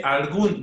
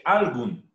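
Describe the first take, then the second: First: Algún with the stress on the last syllable, the final gún held long; algún stressed on gún, the right way; correct stress. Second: Algún said wrongly with the stress moved to al, as ÁLgun; algún with the first syllable stressed, as the mistake. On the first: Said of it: "Se dice algún". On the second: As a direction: put the weight on al in algún, the wrong way. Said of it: "no se dice algún". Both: Shown as a demonstration.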